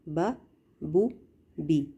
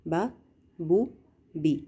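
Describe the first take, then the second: Both takes have the same delivery.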